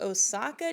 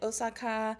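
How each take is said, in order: First: It is said with an English-style pronunciation. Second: It is said with a Japanese-style pronunciation.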